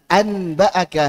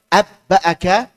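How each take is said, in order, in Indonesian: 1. Bunyi n diucapkan penuh dan jelas sebelum b. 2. Bunyi n melebur sepenuhnya menjadi b yang ganda. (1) "dibaca izhar terasa berat" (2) "diubah menjadi idgham atau dimasukkan ke huruf ba juga tidak cocok"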